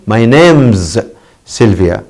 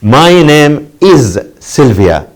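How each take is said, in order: First: "name's" contracted, quick and light; short form. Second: "My name is Sylvia" drawn out slowly, "is" stressed; full form, slow. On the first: Teacher showing students the contraction. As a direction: run "name's" together as one syllable. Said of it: "In the short form". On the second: Teacher to class, careful full form. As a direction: lean on "is", unhurried. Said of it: "Another example". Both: Shown as a demonstration.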